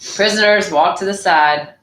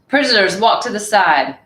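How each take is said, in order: First: It is said in a flat, bored voice. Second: It is said in a lively, not bored voice. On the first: The speaker calls it right. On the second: The speaker calls it wrong.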